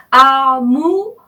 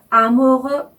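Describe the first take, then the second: First: 아무르 louder and higher, slow, rising French R; French pronunciation. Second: 아무르 higher, clearly modeled; again the French amoureux; French pronunciation. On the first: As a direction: model amoureux clearly. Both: Shown as a demonstration. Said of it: "이렇게 발음을 하시는 거죠".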